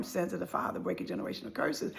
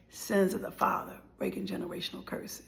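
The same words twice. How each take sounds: First: Soft, breathy hushed refrain; whispered refrain. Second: Soft, breathy hushed whisper; whispered refrain. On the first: Telling viewers of family sin, a hushed whisper. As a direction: breathe the words like a solemn truth. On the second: Closing on family sin for viewers, a whisper. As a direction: whisper it like a solemn truth. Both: Real, not acted.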